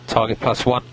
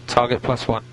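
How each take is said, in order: Both takes have the same delivery.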